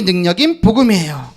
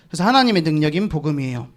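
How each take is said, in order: First: Said in the usual way. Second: Quiet repeat. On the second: Shown as a demonstration.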